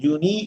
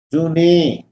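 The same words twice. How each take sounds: First: جونی with a clear Arabic i at the end; جونی ending in a crisp i sound; Arabic-style vowel. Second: جونے with a long Urdu e at the end; جونے ending in a long e, as the mistake to avoid; Urdu-style vowel. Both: Shown as a demonstration. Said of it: "عربی والے جونے نہیں".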